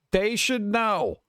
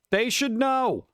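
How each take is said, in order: First: "They should know" drawn out slowly, each word weighted; slow emphatic repeat. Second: Said in the usual way. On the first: Shown as a demonstration.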